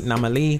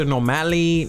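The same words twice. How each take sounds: First: "Normali" with a weak middle vowel; "Normali" with an ah first and reduced middle; variant pronunciation. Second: "Normali" with an open a in the middle; "Normali" with a MAL as in "pal"; variant pronunciation. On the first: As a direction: say "Normali" as NAH-muh-lee. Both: Shown as a demonstration. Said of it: "People say all kind of stuff".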